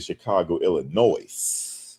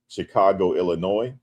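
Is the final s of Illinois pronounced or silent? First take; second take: pronounced; silent. First: Illinois ends with an added s noise. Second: Illinois ends without an added s sound. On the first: The speaker calls it wrong. "You got to put that noise on it" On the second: The speaker calls it right. "Instead of saying"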